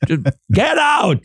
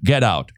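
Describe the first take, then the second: First: Mock-angry high-pitched outburst; openly aggressive. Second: Understated cutting dismissal; acerbic. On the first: Host jokingly orders co-host to leave, mock aggressive. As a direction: play at throwing someone out in a raised pitch. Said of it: "passive-aggressive without the passive part". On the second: Acted. Soap character dismisses Jimmy before walking away, acerbic. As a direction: drop it curtly, as a soap exit line. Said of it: "Say the acerbic thing".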